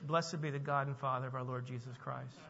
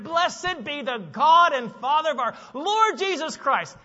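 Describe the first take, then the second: First: It is read flatly, without excitement. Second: It is exclaimed with joyful, praising excitement.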